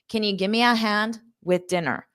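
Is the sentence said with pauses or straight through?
pauses. The sentence is broken by two short pauses. "So you might have those two pauses"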